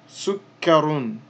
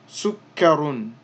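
First: The word ends with a final -un sound. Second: The word ends with a final -un sound.

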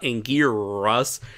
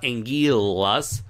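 First: The middle consonant is an English R. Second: The middle consonant is an L. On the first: "it's not Angiras" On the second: "it's not Angilas"

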